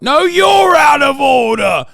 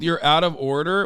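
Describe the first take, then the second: First: Indignant shout. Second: Said in the usual way. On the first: Real, not acted.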